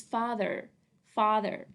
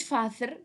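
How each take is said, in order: First: Father with th buzzed as in this; voiced TH. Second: Father with th breathed as in think; voiceless TH error. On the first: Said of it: "It's the". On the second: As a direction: mispronounce father as "fa-thur" with unvoiced th. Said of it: "ما قلناش father". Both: Shown as a demonstration.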